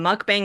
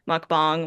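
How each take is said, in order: First: It is said with an English-style pronunciation. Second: It is said with a Korean-style pronunciation. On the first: The speaker calls it wrong. "the westernized version of saying" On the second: The speaker calls it right. "the South Korean, like the right way to pronounce"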